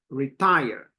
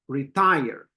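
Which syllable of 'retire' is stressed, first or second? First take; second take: second; second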